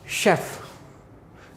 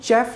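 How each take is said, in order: First: The word begins with an 'sh' sound. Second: The word begins with a 'ch' sound. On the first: The speaker calls it right. "इसको पढ़ेंगे शेफ" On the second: The speaker calls it wrong. "चेफ नहीं पढ़ेंगे इसको"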